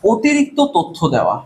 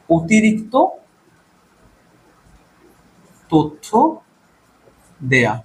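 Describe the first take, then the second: First: Said in the usual way. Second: অতিরিক্ত তথ্য দেয়া broken word by word with long pauses; slow dictation. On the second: Shown as a demonstration. Teacher dictating to students, word by word.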